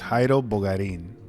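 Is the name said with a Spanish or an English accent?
Spanish. The name is said with Spanish pronunciation.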